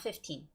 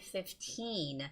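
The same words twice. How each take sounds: First: The ee vowel is kept short. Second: The ee vowel is drawn out long. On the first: The speaker calls it wrong. "not fifteen" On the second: The speaker calls it right. "make a longer sound for that part, E E"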